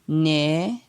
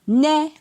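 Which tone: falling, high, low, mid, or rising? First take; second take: rising; high. First: The syllable has a rising tone. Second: The syllable has a high tone. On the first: "ton montant" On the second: "ton haut"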